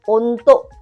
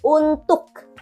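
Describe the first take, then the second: First: The final K is held back and barely heard. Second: The final K is clearly released. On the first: "si K-nya itu nggak begitu terdengar jelas" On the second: "Kalau orang Indonesia ngomongnya itu untuk"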